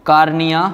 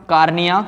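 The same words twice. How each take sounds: The two takes are said the same way.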